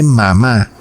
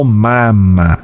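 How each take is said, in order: First: "mamá" with the stress clearly on the last syllable. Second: "mama" with both syllables even and unstressed, said slowly; flat syllables mama. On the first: Preacher contrasting a baby's babble, stressing the last syllable. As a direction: say "mamá" and lean on the final "má". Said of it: "sílabas planas". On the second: Preacher showing how a baby says mama, flat even syllables. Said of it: "dice sílabas planas". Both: Shown as a demonstration.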